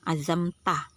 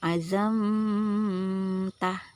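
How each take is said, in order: First: The m passes straight into the t. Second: The m is held before the t. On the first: The speaker calls it right. "pasti langsung" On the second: The speaker calls it wrong. "tidak mungkin kita melakukan nih"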